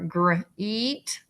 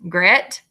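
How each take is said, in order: First: The vowel is a long 'ee' sound. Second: The vowel is a short 'eh' sound. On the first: "or it could say E" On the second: "It could say eh"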